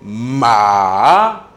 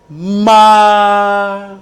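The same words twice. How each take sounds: First: The tone dips down and then rises. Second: It is said with the first tone. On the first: "Le troisième ton c'est ma. Donc vous baissez la tête et vous reprenez" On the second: "le premier ton c'est ma"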